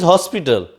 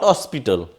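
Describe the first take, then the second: First: The first h sound is pronounced. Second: The first h sound is silent. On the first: The speaker calls it right. "it is hospital. That's why we will use here A" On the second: The speaker calls it wrong. "not hospital"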